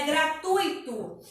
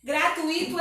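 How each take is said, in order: First: Gratuito as gra-TUI-to, stressed U; correct pronunciation. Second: Gratuito as gra-tu-I-to, stressed I; incorrect pronunciation. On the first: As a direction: keep UI together in gratuito, stressing the U. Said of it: "a pronúncia correta é". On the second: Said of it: "é incorreto". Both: Shown as a demonstration.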